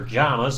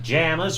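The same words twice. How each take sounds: First: The vowel is an 'ah' sound, as in 'palm'. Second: The vowel is not an 'ah' sound.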